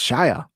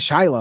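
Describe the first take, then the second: First: The name is said without an L sound. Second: The name is said with an L sound. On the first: The speaker calls it right. "there's no L in his name. It's Shia" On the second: The speaker calls it wrong. "they say it with an L"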